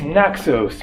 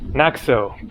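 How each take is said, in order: First: The name ends with an S sound. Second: The name ends without an S sound. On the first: "all of the Greek islands that end in S" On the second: "In Greek, they don't pronounce the S"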